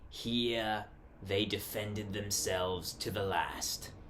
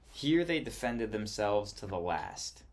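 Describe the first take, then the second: First: It is read in a put-on accent. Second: It is read in a natural accent.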